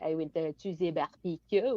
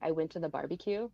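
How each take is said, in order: First: It has a France accent with a French R. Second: It has a neutral English accent and R. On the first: "people from France will be like ... like the French R" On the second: "instead of saying like"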